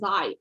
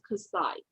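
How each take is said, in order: First: The word begins with a 'z' sound. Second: The word begins with a 'ks' sound. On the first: The speaker calls it wrong. "I think you pronounce as Zai" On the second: The speaker calls it right. "I think that should be pronounced as Kasai"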